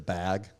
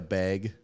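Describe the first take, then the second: First: The vowel has a standard, non-Midwestern accent. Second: The vowel has a Midwestern accent. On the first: "as opposed to bag" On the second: "like how Midwest people say bag"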